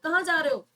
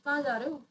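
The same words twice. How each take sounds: First: It is shouted in an angry tone. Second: It is said in a jealous tone. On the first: The speaker is angry. "अगर मैं चिल्ला के बोलूँगी ... तो पता चलेगा कि मैं गुस्से में बोल रही हूँ" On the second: The speaker feels jealous. "अगर मैं थोड़ा सा जेलस फील कर रही हूँ"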